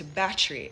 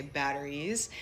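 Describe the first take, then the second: First: "battery" condensed to "batchry"; Jamaican pronunciation. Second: "batteries" in full, with a soft American tt; American pronunciation. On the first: Showing how Jamaicans condense it, patois pronunciation. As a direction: say "battery" in two syllables, the patois way. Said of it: "condense it to battery in". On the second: Showing the American accent version, full pronunciation. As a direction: say "batteries" the American way, three syllables. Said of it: "in an American accent". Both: Shown as a demonstration.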